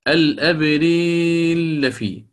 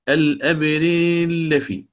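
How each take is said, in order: The two takes are said the same way.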